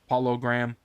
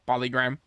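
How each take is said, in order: First: The name is said slowly as two words. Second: The name is said fast as one word.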